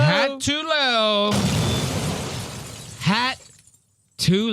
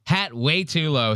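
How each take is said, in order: First: High, slow mocking singsong; mock high drawn-out voice. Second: Said in the usual way. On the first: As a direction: stretch it out high and teasing. Mocking the hat on screen.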